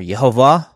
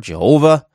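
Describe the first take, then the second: First: "Yehovah", rising onto the last syllable, VAH; "Yehovah" as ye-ho-VAH, Y not J; Hebrew-style Yehovah. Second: "Jehovah", stressed on the middle syllable, HO; "Jehovah" the English way, je-HO-vah; anglicized Jehovah. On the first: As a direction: say "Yehovah" with a Y opening. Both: Shown as a demonstration. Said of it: "how you pronounce it".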